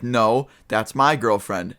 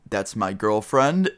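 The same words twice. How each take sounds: First: Slow, with MY punched and falling away; drawn-out retort, emphatic MY; stress on MY. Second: Put-on GIRLFRIEND drawn out with a rising end; slow, uncertain lift on GIRLFRIEND; tentative claim. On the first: Retold or imitated. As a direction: correct him by leaning hard on MY. Boyfriend disputes whose girlfriend. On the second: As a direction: stretch it out, lifting at GIRLFRIEND. Hesitant claim, later contested by boyfriend.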